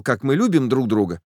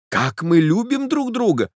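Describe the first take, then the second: First: Said in the usual way. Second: Exclaimed much higher, in rapture; a lover's ecstatic cry; cried out. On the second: A narrator's reading. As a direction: burst out with joy, pitch soaring. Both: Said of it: "закричал я".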